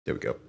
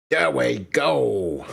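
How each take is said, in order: First: Said in the usual way. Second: Slow, relieved payoff line; slow drawn-out satisfaction. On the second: Real, not acted. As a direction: stretch out "There we go" slowly and louder. Says it twice, second drawn out.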